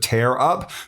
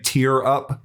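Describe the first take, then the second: First: Tear rhymes with air, as in ripping. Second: Tear rhymes with ear, as in crying. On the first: It means to rip apart. The speaker calls it right. "instead of tear up" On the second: It means to cry. The speaker calls it wrong. "why'd you say tear up"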